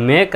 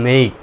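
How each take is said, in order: First: মেক with a brief "e" and no glide; short vowel. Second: মেইক with the "ei" glide held long; long vowel. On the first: Teacher has learners compare two pronunciations, short মেক. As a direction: keep মেক short and clipped. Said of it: "মেক বললে একটু ছোট হয়ে গেল". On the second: Teacher has learners compare two pronunciations, long মেইক. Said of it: "মেইক বলবেন তখন কি একটু long". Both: Shown as a demonstration.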